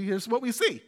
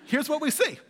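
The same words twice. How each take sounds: First: Voice cracking up an octave. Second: Said in the usual way. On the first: Real, not acted. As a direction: voice cracks mid-sentence. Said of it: "Whoa, my voice just cracked". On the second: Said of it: "It's just a comedy of errors today".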